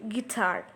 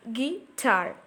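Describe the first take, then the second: First: Said in the usual way. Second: "Guitar" pulled apart as gui, then tar; split into syllables. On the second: Shown as a demonstration. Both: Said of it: "Gi is a weak syllable".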